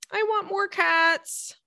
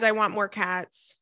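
First: High, slow, pleading little voice; whiny plea. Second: Said in the usual way. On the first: Pretend. Host begging for more cats, high whiny plea. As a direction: beg for more cats like a child. Repeats wish in put-on voice.

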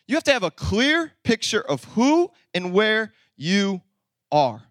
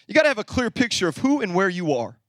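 First: Slow emphatic restatement. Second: Said in the usual way. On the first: Shown as a demonstration. Preacher repeating his first point to the church, slowly and emphatically. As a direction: let "clear", "who", "where", "you", "are" each land separately.

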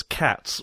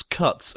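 First: "cats" for cuts, with an open "a" vowel; Greek-style "cats". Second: Said in the usual way. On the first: Shown as a demonstration. Showing how Greeks say cuts, pronounced "cats". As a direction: say "cats" where cuts is meant. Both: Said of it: "Greeks pronounce cuts as cats".

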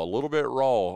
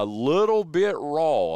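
First: Said in the usual way. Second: Drawn out, slow and a bit louder; stressing "a little bit raw" deliberately; slow emphasis. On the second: Real, not acted. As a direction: lean on each word slowly. Repeats phrase for emphasis.

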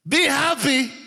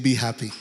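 First: "Be happy" lifted high and bright; "Be happy" high and beaming; joyful emphasis. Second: Said in the usual way. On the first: Shown as a demonstration. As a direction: sing out "Be happy" higher. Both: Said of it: "This is the, today's English".

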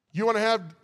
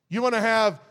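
No difference in how they are said.

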